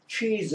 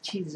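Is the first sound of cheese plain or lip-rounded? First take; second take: lip-rounded; plain. First: The first sound is made with pushed-out rounded lips. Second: The first sound is made with flat, unrounded lips. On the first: The speaker calls it right. "그네들은 치즈 치즈 하는 게 아니, 아니라 치즈 합니다. 즉 입술 내밀고 합니다" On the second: The speaker calls it wrong. "우리가 흔히 저, 저 우유로 만든 치즈 치즈 하는데요"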